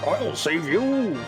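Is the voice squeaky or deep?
deep. It is said in a deeper voice.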